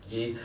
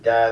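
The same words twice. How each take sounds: First: The word is said with a French pronunciation. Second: The word is said with an English pronunciation. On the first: "They pronounce it guy" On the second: "They don't pronounce it guy"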